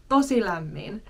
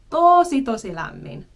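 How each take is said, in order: First: Said in the usual way. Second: First "Tosi" hit much higher and louder, then "tosi lämmin" drops back; emphatic doubling. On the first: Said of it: "say it twice". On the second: Shown as a demonstration. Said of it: "say it twice to really emphasize the point".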